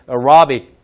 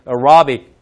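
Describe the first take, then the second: First: It is said lightly in English style. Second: It is said lightly in English style.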